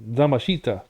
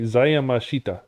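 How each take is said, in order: First: It is said without a 'ya' sound after 'za'. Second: It is said with a 'ya' sound after 'za'. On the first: The speaker calls it wrong. "That's not right" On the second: The speaker calls it right. "something like that"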